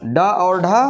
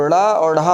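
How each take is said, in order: First: Said in the usual way. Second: ड़ा and ढा as flaps, the curled tongue flicking down; dotted-letter sounds ड़ा and ढा, flapped; flapped consonants. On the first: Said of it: "लेकिन हमने बिंदी लगा दिया". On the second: Shown as a demonstration. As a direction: flick the tongue for ड़ा and ढा instead of a hard stop. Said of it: "हमने बिंदी लगा दिया".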